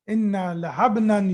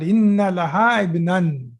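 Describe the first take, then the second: First: Laha and ibnan run together into one word. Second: Laha and ibnan are said as separate words.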